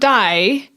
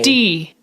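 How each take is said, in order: First: The vowel sounds like English 'eye'. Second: The vowel sounds like English 'ee'. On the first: The speaker calls it wrong. "Not die" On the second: The speaker calls it right. "D I E is the in German"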